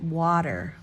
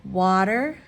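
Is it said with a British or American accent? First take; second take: American; American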